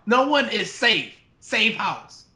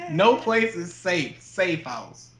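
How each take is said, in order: First: Slightly raised tagline delivery; horror trailer voice. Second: Horror trailer voice. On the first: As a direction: quote the poster slogan. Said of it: "They didn't say". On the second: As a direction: say it like a movie trailer. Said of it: "actual poster slogan for that movie". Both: Retold or imitated.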